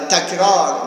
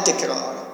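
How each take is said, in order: First: The first vowel is an open a sound. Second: The first vowel is a front e sound. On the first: The speaker calls it right. "تکرار نه تکرار" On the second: The speaker calls it wrong. "نه تکرار"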